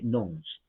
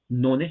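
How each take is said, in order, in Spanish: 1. La E es muda, así que da una sílaba. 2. La E se pronuncia, así que da dos sílabas. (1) "La E no se pronuncia, se dice nons" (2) "lo voy a decir así"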